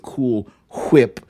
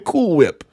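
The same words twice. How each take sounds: First: 'Whip' starts with a breathy H before the W. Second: 'Whip' starts with a plain W sound. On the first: The speaker calls it wrong. "I don't say" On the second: The speaker calls it right. "I say"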